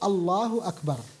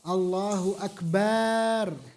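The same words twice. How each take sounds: First: The vowel after the b is kept short. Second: The vowel after the b is drawn out long. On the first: The speaker calls it right. "Harus Allahu akbar" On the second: The speaker calls it wrong. "menjadikan huruf ba panjang"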